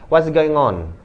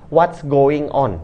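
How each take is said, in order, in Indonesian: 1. Frasa itu diucapkan dengan cepat, menyambung jadi satu. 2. Frasa itu diucapkan dengan pelan dan hati-hati. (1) "kalau mau cepat-cepat, bacanya secara zet zet zet zet zet" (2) "pelan-pelan aja"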